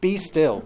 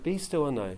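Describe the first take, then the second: First: It is said in a stern, commanding tone. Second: It is said in a gentle, pleasant tone.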